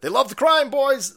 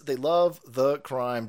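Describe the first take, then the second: First: Loud, high taunting call; high-pitched, shouted jab; mocking holler. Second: Drawn-out, word-by-word delivery; slow, deliberate restatement; slow emphatic repeat. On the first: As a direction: crow it out to the crowd. Sarcastic jab, then repeated slower. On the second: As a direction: spell it out slowly for the listeners. Repeats the jab slowly. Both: Real, not acted.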